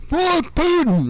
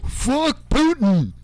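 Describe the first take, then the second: First: Much higher, louder defiant battle cry; mock Prigozhin yell. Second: Slow, higher, drawn-out defiant mock curse; mock Prigozhin defiance. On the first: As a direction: yell it like a charging rebel. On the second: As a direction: ham up a rebel's slow jeer at Putin. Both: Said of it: "Prigozhin's like".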